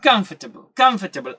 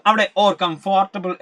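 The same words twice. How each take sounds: First: "കംഫർട്ടബിൾ" said as "kumf-tuh-bl", the "or" dropped; native-style three-syllable "comfortable"; squeezed comfortable. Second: "കംഫർട്ടബിൾ" with every syllable, "com-for-ta-ble"; wrong, spelling-style "comfortable"; spelled-out comfortable. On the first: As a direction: swallow the middle vowel. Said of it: "exact pronunciation". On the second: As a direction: pronounce it just as it is written. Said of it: "എന്നൊന്നും നമ്മൾ ഒരിക്കലും". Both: Shown as a demonstration.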